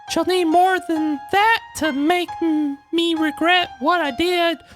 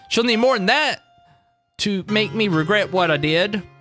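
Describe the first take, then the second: First: It is said in a put-on character voice. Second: It is said in a plain normal voice.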